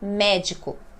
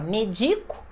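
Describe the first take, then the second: First: The stress is on the first syllable. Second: The stress is on the second syllable. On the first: The speaker calls it right. "E aí eu coloco o acento" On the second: The speaker calls it wrong. "que seria o paroxítono"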